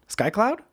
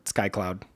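First: SKY CLOUD with a steep rise at the end; "Sky cloud?" climbing in doubt; questioning. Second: Said in the usual way. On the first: Real, not acted. Doubting the name just recalled.

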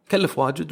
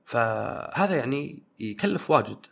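First: يكلف واجد said higher and louder for emphasis; insisting it really costs a lot; emphatic repeat. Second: Said in the usual way. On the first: Real, not acted.

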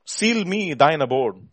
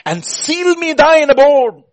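First: Said in the usual way. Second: Slow, high, loud plea; impassioned cry. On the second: Real, not acted. Preacher begging God to dwell in him, impassioned cry. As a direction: belt it out as a drawn-out prayer. Cries hymn line, then repeats.

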